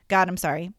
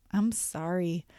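First: Quick, perfunctory little prayer; not meaning it. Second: Low, soft, earnest apology; meaning it. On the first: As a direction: rattle off an apology to God. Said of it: "not saying it like you mean it". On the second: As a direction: apologise quietly from the heart. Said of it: "saying it like you mean it could sound more like". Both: Shown as a demonstration.

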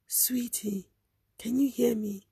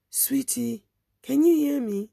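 First: Soft whisper near the ear; hushed urgent whisper. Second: Rising call to reach her; urgent raised call. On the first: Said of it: "She was whispering now". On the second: Woman calling to fading girl. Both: Retold or imitated.

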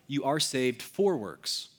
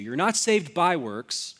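First: FOR stressed and drawn out. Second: BY stressed and drawn out. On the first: Preacher correcting "by" to "for", stress on FOR. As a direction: lean on the word "for", slowly. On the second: Preacher setting up "by" against "for", stress on BY. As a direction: lean on the word "by", slowly. Contrasts by works with for works. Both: Shown as a demonstration.

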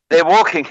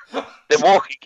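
First: Said in the usual way. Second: Giggling through the words; can't keep a straight face telling it; breaking into laughter at his own joke; laughing. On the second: Real, not acted.

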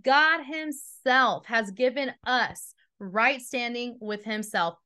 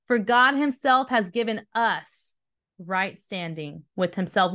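First: Slow it right down, leaning on God; slow, weighty reread. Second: Said in the usual way. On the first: Shown as a demonstration. Preacher rereading for the congregation, slow and weighty. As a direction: let each word land, unhurried. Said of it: "Will you pause for a second and hear that again?". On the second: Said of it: "hear that again".

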